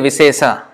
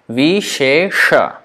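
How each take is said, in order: First: Both hissing sounds are plain s sounds. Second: Both hissing sounds are sh sounds. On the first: The speaker calls it wrong. "Don't say visesa" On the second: The speaker calls it right.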